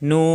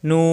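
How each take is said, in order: No difference in how they are said.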